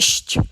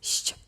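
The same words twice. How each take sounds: First: The sh sound is hard. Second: The sh sound is soft. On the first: The speaker calls it wrong. "It's not sh" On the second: The speaker calls it right. "It's very soft"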